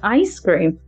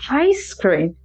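First: The phrase starts without an H sound. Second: The phrase starts with an added H sound. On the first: The speaker calls it right. "Instead of saying ice cream" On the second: The speaker calls it wrong. "I could say ice cream"

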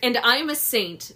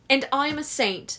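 First: It is read in the speaker's normal voice. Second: It is said in a put-on accent.

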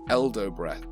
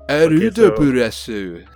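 First: The name is said with English pronunciation. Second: The name is said with Japanese pronunciation.

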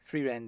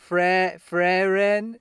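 First: The first vowel sounds like the one in 'free'. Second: The first vowel sounds like the one in 'friend'. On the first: The speaker calls it right. "it just makes more sense to me" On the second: The speaker calls it wrong. "That's like friend"

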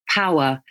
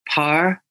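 First: The word is said with two syllables. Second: The word is squeezed into one syllable. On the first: "So in RP, it's flower, power" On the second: "In Northern Irish, it almost becomes just one sound, okay? Just one syllable"

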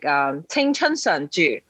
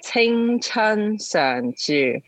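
First: The phrase is said at a normal pace. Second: The phrase is said slowly.

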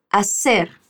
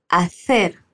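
First: The c sounds like s, Colombian style. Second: The c sounds like th, Spanish style.

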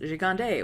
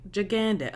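First: The name is pronounced in a French way. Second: The name is pronounced in a plain English way. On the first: The name is of French origin. "is it French and it's Gigande" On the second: The name is ordinary Anglo-American. "or is it just like super waspy and like Gigandit"

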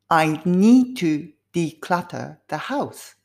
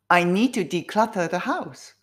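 First: The sentence is spoken at a slow pace. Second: The sentence is spoken at a fast pace. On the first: "少しずつスピードアップでやりますね" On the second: "スピードアップすると自分の声のトーンも変わりますね"

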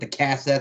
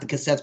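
First: The word is said with a twang. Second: The word is said plainly, without a twang. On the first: "as he used to like to put that little twang with it" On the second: "Not the cassettes"

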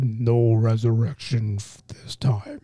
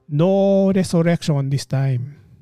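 First: It is said as a Thanos impression. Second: It is said with a Filipino accent.

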